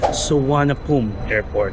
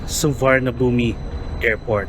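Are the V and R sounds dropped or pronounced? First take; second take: dropped; pronounced. First: The V and R sounds are dropped. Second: The V and R sounds are pronounced. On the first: "hindi nila kayang ma-pronounce masyado ang V at saka R" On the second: "it should be spelled as S U V A R N A B H U M I"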